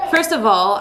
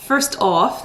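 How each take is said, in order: First: Said in the usual way. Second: A light British accent on a short phrase. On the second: Shown as a demonstration. Vlogger repeating her own slip, British accent. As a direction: echo it with a British lilt. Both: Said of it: "that sounded very British".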